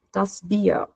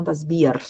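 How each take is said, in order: First: Bier with a soft ending toward A; German Bier. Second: Bier with a hard R at the end; wrong Bier. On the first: Teacher giving the right Bier. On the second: Teacher showing the wrong Bier. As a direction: say Bier with a full R. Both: Shown as a demonstration. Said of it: "e não das Bier".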